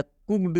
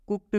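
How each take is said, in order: First: कुक्ड pronounced "kukd", voiced D ending. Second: कुक्ड pronounced "kukt", voiceless T ending. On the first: Teacher offers learners the other option, कुक्ड with a D ending. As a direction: say कुक्ड with a clear ड at the end. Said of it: "इस डी का उच्चारण ड भी करते हैं". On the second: Teacher offers learners the first option, कुक्ड with a T ending. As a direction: say कुक्ड with ट in place of ड. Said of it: "आप कुक्ड भी पढ़ सकते हो". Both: Shown as a demonstration.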